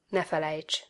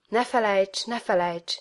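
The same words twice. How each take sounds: First: Said in the usual way. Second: Understated repeated plea, first one lifted, second falling; lightly acted cry, barely raised; mild crying out. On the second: A narrator's reading. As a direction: call it out gently, as a worn-out appeal. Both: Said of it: "Egész életemben ezt kiabáltam".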